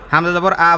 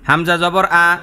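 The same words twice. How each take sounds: First: The phrase is read very quickly and fluently. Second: The phrase is read at a quicker pace. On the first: "এরপর আরো চালু" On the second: "আস্তে আস্তে পড়াটা চালু করবেন"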